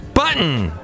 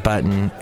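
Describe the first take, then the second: First: The first syllable gets heavy, exaggerated emphasis. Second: The word is said plainly, without extra emphasis.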